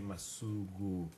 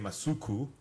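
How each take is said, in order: First: The k sound is gentle and soft. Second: The k sound is hard and strong. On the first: The speaker calls it right. "You'd say Masuku. Gently" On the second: The speaker calls it wrong. "You wouldn't say Masuku"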